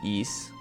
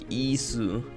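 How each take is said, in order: First: The name ends on a consonant, no vowel. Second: The name ends with an added vowel sound. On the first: This is the actual pronunciation. "the pronunciation is just Is" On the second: This is the Japanese katakana reading. "the Japanese katakana is actually like Isu"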